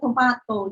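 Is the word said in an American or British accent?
British. It is said in a British accent.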